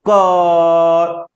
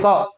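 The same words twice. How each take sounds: First: "क" drawn out very long on a steady note; long sound. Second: "क" said as briefly as possible; short sound. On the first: Teacher showing only the vowel lengthens, "क" held long. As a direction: stretch the vowel of "क" right out. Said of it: "उच्चारण को लंबा करेंगे". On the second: Teacher showing a consonant still needs a vowel, "क" kept short. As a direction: cut "क" short, barely any vowel. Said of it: "आप कितना भी छोटा बोलेंगे". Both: Shown as a demonstration.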